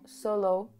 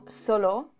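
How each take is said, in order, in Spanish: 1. Se pronuncia con un acento que suena extranjero. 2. Se pronuncia de la forma nativa del español. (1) "pero él decía como solo" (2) "que es como solo"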